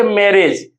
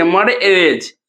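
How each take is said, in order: First: Said in the usual way. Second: "मरेज" split slowly, mar, then ej; two-syllable breakdown. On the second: Shown as a demonstration. Teacher splitting marriage for students, "मरेज" slow and segmented. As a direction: pull "मरेज" apart into two pieces.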